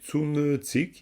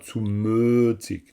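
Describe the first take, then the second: First: The vowel change is slight and moderate. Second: The vowel change is strongly exaggerated. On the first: The speaker calls it right. "il y a quand même Zumötzig" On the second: The speaker calls it wrong. "c'est pas Zumötzig. Non, là, ce serait trop"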